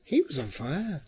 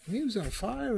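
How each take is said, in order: First: Said in the usual way. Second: "He was on fire" much higher, lifted on "was"; excited emphasis. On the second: Real, not acted. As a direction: repeat "He was on fire" high and thrilled.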